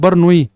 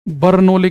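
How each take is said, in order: First: The L sound is left out of the name. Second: The L sound is pronounced in the name. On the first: "सही pronunciation है बर्नौई" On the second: "ये हिंदी में बर्नौली लिखा होता है"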